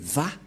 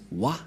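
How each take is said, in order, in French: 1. La syllabe commence par un son V. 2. La syllabe commence par un son W. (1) "pour les juifs, le W se lit V" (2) "ces termes se prononcent selon eux en W"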